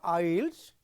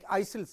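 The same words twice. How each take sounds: First: The s sound is silent in the word. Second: The s sound is pronounced in the word. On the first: The speaker calls it right. "S is silent" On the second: The speaker calls it wrong. "you should not pronounce like isles"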